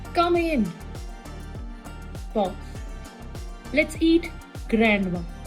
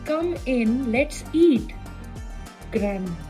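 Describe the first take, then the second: First: There is a pause after 'come in'. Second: There is no pause after 'come in'. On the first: "कम इन pause" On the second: "और दूसरा बनता है"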